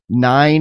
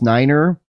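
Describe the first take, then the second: First: The word is said with one syllable. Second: The word is said with two syllables. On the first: This is the everyday form of the number. "nine is pronounced niner" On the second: This is the radio form of the number. "nine is pronounced niner"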